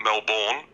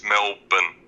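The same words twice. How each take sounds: First: Melbourne said "MEL-born"; full "born" in the second syllable of Melbourne; wrong pronunciation. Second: Melbourne said "MEL-bun"; local pronunciation. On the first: Listener showing the host what not to say, wrong pronunciation. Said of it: "correct your Melbourne pronunciation". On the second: Listener correcting the host's Melbourne, local pronunciation. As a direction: swallow the second syllable of Melbourne to "bn", no R. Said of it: "It's not Melbourne". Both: Shown as a demonstration.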